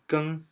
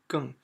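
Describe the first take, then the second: First: The word is said with a high level tone. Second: The word is said with a falling tone. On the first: It means to change. "when you pronounce as first one" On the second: It means even more. "pronunciation is 更 for the fourth one"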